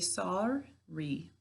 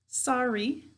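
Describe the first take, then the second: First: Each syllable's sounds are said out clearly. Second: It is said in normal everyday speech. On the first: This is how the word is said to spell it. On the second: This is how the word is normally said.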